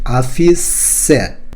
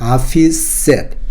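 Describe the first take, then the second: First: The final sound of 'said' is fully pronounced. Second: The final sound of 'said' is dropped. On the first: The speaker calls it wrong. "이 아닙니다" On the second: The speaker calls it right. "보통 뒤에 발음을 생략을 합니다"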